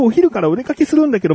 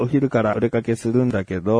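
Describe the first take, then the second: First: It is spoken at a fast, rushed pace. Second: It is spoken at a slower, ordinary pace. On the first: The speaker calls it right. "今早口で言いましたでしょ。" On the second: The speaker calls it wrong. "違和感ありますよね。"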